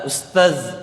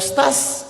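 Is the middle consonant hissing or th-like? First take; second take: th-like; hissing. First: The middle consonant is a soft th-like sound. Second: The middle consonant is a plain hissing sound. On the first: The speaker calls it right. "yang betul adalah dza, ustaz, pakai dzal" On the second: The speaker calls it wrong. "jangan sampai masih bilang uh"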